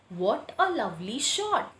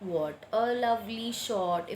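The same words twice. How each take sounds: First: It is read with lively, exclaiming expression. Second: It is read flatly, without any expression. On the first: "I am expressing that sentence" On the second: "if I just read it like that without punctuation mark"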